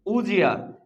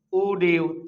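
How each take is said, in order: First: "উজিয়া" with d and y fused into j; linked pronunciation. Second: Said in the usual way. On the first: Shown as a demonstration. Teacher answers what this becomes, "উজিয়া" with a j link. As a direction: run it together as u-jia, "উজিয়া". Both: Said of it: "তাহলে এটা কি হবে".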